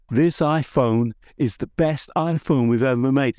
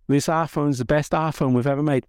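First: Keynote-style American accent imitation; Tim Cook accent. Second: Said in the usual way. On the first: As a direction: deliver it like a proud American tech CEO on stage. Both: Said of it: "Excuse the, the accent".

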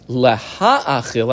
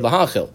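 First: Laha'achil drawn out very slowly, each syllable weighed; underlined word. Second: Said in the usual way. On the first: Shown as a demonstration. Teacher underlining Laha'achil for the class, slow and emphatic. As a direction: stretch out Laha'achil slowly so it stands out. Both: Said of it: "underline the word laha'achil".

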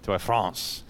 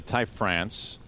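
First: "T Y France" spelled out, T and Y each said as a letter. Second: Said in the usual way. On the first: Shown as a demonstration. Host plays on the player's name, saying "T Y France" letter by letter. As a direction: say "T Y France" letter by letter, like Tee Why France. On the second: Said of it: "I actually like where [name]'s going".

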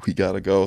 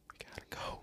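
First: Said in the usual way. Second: Barely audible urgent whisper; hushed, voiceless aside; retold whisper. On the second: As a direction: imitate a friend whispering to slip away. Friend sneaking out of the room.

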